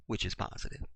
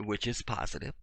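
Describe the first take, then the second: First: Whispered aside. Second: Said in the usual way. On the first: Shown as a demonstration.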